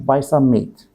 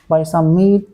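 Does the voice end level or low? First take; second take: low; level. First: The phrase ends on a low pitch. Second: The phrase ends on a level pitch. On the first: The speaker calls it right. "It should be buy some meat. Finish" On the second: The speaker calls it wrong. "they finish in normal tone. That's wrong"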